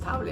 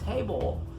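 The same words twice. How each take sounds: First: The vowel is an open Spanish-style 'a'. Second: The vowel is an English 'ay' sound. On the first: The speaker calls it wrong. "a lo mejor dices table, table y no es table" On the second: The speaker calls it right. "es table"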